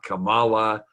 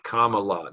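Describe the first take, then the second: First: The name does not start like comma. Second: The name starts like the word comma. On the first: The speaker calls it wrong. "not Kamala" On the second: The speaker calls it right. "the mnemonic is comma... and then the la"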